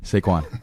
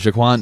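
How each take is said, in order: First: The name begins with a plain 's' sound. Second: The name begins with an 'sh' sound. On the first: The speaker calls it right. "Say it with me" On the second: The speaker calls it wrong. "not Shaquan"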